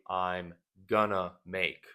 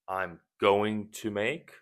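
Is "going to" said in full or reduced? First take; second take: reduced; full. First: The words "going to" are shortened to "gonna". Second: The words "going to" are said in full. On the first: The speaker is being casual and less formal. "people shorten or shorten and say" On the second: The speaker is being clear and formal. "Going to is more clear and formal"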